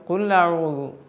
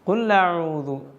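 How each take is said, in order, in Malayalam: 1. ഹംസ ഇരട്ട ലാം ശബ്ദത്തിൽ ലയിക്കുന്നു. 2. ഹംസ ഇരട്ട ലാം ശബ്ദത്തിൽ ലയിക്കുന്നു.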